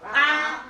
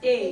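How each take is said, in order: First: The letter is said the Igbo way. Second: The letter is said the English way. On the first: The speaker calls it right. "it's pronounced as A" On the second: The speaker calls it wrong. "In Igbo it's not pronounced as A"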